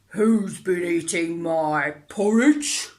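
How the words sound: It is said in a deep growl.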